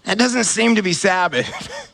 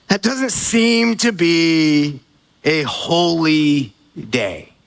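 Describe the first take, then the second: First: Said in the usual way. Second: Slow, lower, weighty rephrase; slow emphatic restatement. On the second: Acted. Preacher redefining Sabbath to congregation, slow and weighty. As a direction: lean on each word, slowly.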